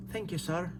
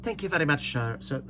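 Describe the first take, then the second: First: A soft, lightly put-on Irish accent. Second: Put-on light Irish accent; trying the Irish again. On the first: Answering the Irish commenter in a soft Irish accent. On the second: Thanking the Irish commenter in a light Irish accent. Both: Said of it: "Is that my Irish accent?".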